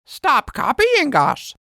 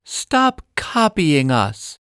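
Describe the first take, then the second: First: High, slow squawky parrot echo; parrot copying. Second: Put-on slow, firm little-girl voice; a child's half-hearted yell, slowly; mild mock shout. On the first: Acted. Parrot teasing the girls by copying, high parrot voice. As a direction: parrot mimics the words back. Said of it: "Parrot repeats". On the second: Lizzie scolding the copying parrot, mild girl's shout. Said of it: "Lizzie shouts".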